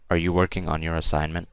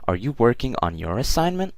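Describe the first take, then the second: First: It is said flatly, not like a question. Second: It is said with question intonation. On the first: The speaker calls it wrong. "that doesn't sound like a question" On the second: The speaker calls it right. "Saying it as a question"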